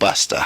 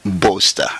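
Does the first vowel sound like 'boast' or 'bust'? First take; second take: bust; boast. First: The first vowel sounds like in 'bust'. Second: The first vowel sounds like in 'boast'. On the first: This is how the MCs turned the name. "It's not Buster" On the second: This is how the name was first chosen. "the name itself is Slim Boaster"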